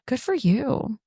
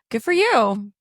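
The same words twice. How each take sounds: First: It is said in a flirty way. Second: It is said in a jealous way.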